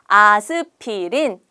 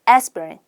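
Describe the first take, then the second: First: It is said with Korean sounds and no r. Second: It is said with a clear English r sound. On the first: The speaker calls it wrong. "아스피린 하지 마시고" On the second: The speaker calls it right. "R 발음 조금 살려서"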